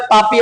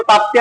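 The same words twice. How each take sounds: First: ताप्ती pronounced "taa-pee", second T left out; variant pronunciation. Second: ताप्ती pronounced "taap-tee", P followed by T; variant pronunciation. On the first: Teacher warning of exam spellings, ताप्ती said "taapee". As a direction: say ताप्ती without a T after P. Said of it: "exam में भी कई बार ताप्ती आता है". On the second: Teacher warning of exam spellings, ताप्ती said "taaptee". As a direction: keep the T after P in ताप्ती. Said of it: "कई बार ताप्ती आता है". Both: Shown as a demonstration.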